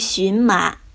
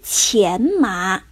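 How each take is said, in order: First: The first syllable sounds like xún. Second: The first syllable sounds like qián. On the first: The speaker calls it wrong. "而不是荨麻" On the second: The speaker calls it right. "艾丽莎用来编织披甲的植物是钱麻"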